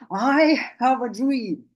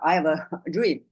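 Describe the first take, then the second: First: It is said with strong, rich emotion. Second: It is said flatly, without emotion. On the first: Listeners feel moved to join the cause. The speaker calls it right. "so his voice was full of emotions" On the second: Listeners would not feel moved. The speaker calls it wrong. "In his voice, there's no emotion if he had spoken in that way"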